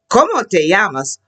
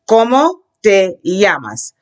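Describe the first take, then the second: First: It is said faster. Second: It is said slowly.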